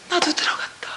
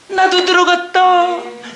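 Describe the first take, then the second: First: Hushed, stunned whisper of 나도 들어갔다; a whispered discovery; awed whisper. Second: 나도 stretched slowly with weight; spoken slowly, voice full on 나도; slow emphatic repeat. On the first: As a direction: breathe 나도 out in wonder. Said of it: "awed realization, repeated". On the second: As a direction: lean slowly on 나도 and let it land. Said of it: "same words, emphatic repeat". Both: Real, not acted.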